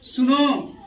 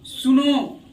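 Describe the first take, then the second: Both takes have the same delivery.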